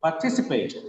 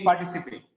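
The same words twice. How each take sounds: First: "Participate" with a drawn, weighted TI; par-TI-cipate, clearly modelled; stress on second syllable. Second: Said in the usual way. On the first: Shown as a demonstration. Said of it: "the second syllable stress". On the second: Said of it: "it's not like reading participate".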